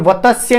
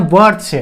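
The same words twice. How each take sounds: First: "वत्स्य" split as va-ta-sya; wrong pronunciation. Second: "वर्ड्स" in two syllables, vart-sya; correct pronunciation. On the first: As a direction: put an extra vowel between t and s in "वत्स्य". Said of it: "इसका उच्चारण वत्स्य नहीं होता". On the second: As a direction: run the ts together in "वर्ड्स", no vowel between. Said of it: "इसका उच्चारण होता है". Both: Shown as a demonstration.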